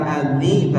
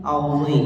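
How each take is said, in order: First: "azi" with a thin, light z; "azi" as the contrasting thin sound. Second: "auzi" with a heavy, thickened emphatic z; "auzi" as the heavy Arabic sound; thick zho. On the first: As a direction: say "azi" without thickening the consonant. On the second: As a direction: say "auzi" full-mouthed, tongue back raised. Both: Shown as a demonstration. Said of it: "Harus dibaca tebal".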